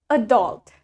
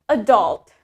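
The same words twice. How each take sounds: Both takes have the same delivery.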